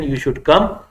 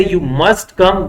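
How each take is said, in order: First: Said in the usual way. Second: "must come" said higher and slow, pressing; emphatic insisting invitation. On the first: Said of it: "One is called invitation". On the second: Shown as a demonstration. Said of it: "But if I say".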